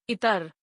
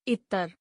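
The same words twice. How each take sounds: First: इतर with a single light t, "itar". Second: इतर with a held t, "ittar"; doubled t. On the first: Teacher gives word for "other", इतर with single t. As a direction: keep the t in इतर short. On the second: Teacher gives word for perfume, इतर said with held t. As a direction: hold the t in इतर. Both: Shown as a demonstration. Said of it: "उच्चारण एवं वर्तनी की शुद्धता".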